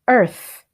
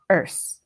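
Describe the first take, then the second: First: The word ends with a TH sound. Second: The word ends with an S sound. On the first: The speaker calls it right. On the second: The speaker calls it wrong.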